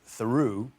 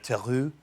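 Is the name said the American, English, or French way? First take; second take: English; French. First: The name is said the English way. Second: The name is said the original French way. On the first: This is how relatives in England say it. "who live in England, and they pronounce it" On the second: This is how it was said in the ancestral homeland. "in the motherland, it would have been uh"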